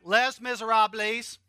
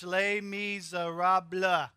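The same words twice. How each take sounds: First: Jokingly butcher "Les Miserables" the Southern way; mock Southern phonetic. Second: "Les Miserables" said very slowly as "lay miz-er-ahb"; careful, slow French "Les Miserables"; French pronunciation. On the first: Pastor teasing Southern folks with the phonetic reading. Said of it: "if you learn phonetically ... like I did". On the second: Pastor leading the church in the French title. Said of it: "you put 'em all together". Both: Shown as a demonstration.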